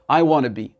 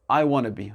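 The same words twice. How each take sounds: First: The word 'to' is shortened and reduced. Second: The same.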